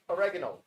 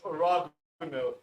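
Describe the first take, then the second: First: The word is said in an everyday, plain way. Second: The word is said in a posh, upper-class way.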